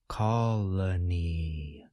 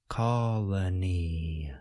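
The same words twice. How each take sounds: The two takes are said the same way.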